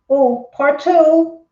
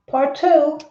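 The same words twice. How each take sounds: First: Slow, drawn out, louder; host eagerly reading a viewer's message; excited. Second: Said in the usual way. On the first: Real, not acted. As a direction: stretch it out with eager anticipation.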